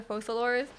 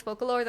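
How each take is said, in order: First: "Fosalors" as FOH-suh-lors; soft C reading. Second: "Focalors" as FOH-kuh-lors; hard C reading. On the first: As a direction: say "Fosalors" with an S sound. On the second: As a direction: say "Focalors" with a K sound. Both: Shown as a demonstration. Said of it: "I don't know if it's".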